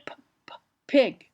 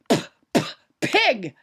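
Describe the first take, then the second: First: The p sounds are soft with little air burst. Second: The p sounds burst out with a strong puff. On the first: The speaker calls it right. "you say" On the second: The speaker calls it wrong.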